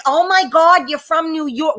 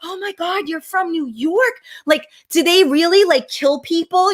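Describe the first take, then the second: First: Exaggerated imitation of gawking tourists; mock amazement. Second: Mock wide-eyed tourist asking in awe; imitating awed onlookers. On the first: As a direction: overdo the onlookers' gushing. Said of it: "they didn't say it like that". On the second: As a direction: start small and high, then blurt the question. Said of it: "They're like".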